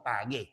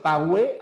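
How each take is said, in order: First: "pagué" with hard g and no U sound; silent U. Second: "pagüe" with a sounded U, as pa-gwe; U pronounced. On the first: Teacher correcting the diphthong mistake, "pagué" without any U sound. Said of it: "la U no se". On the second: Teacher showing the hypothetical diphthong, "pagüe" said with gwe. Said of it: "tiene que pronunciarse la U". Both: Shown as a demonstration.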